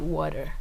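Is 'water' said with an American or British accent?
American. The word is said with an American-style accent. This is the pronunciation Americans understand. The speaker calls it right. "you have to unlearn that and say water"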